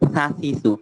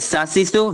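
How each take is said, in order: First: The consonant is a soft thin th sound. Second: The consonant is a hard hissing s sound. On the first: The speaker calls it right. "একটা হচ্ছে পাতলা কেমন জানি" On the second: The speaker calls it wrong. "প্রথমটা হচ্ছে শক্ত এস এর মতো। এস এর মতো বললে হবে না"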